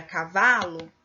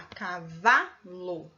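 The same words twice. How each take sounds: First: Said in the usual way. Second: "cavalo" very slowly, syllable by syllable, leaning on VA; stress on VA. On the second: Shown as a demonstration. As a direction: draw out "cavalo" to show the stressed VA. ("cavalo" bem devagar, destacando a sílaba tônica VA) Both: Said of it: "É a sílaba que tem mais intensidade".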